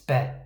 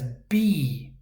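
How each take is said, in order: First: The vowel is a short 'eh' sound. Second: The vowel is a long 'ee' sound. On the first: The speaker calls it right. "It's be" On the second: The speaker calls it wrong. "If you're seeing number two as b, it's wrong"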